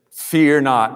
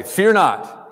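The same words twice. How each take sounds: First: Said in the usual way. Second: Lightly voiced angel, higher pitched; a hint of an angel calming a frightened man; angel's command. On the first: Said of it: "Let's say the". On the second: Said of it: "They always say".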